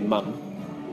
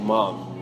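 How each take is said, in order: First: It is said with a New Zealand, closed-mouth vowel. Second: It is said with a wide-open mouth vowel. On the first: "I think Kiwis would say mum" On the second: "she would say mom"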